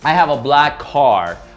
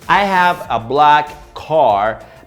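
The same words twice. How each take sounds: First: The two k sounds merge into one linked sound. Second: Each word is said separately, with both k sounds. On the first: The speaker calls it right. "So I use the both sounds into one" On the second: The speaker calls it wrong. "We shouldn't say, ... that sounds like you are a robot"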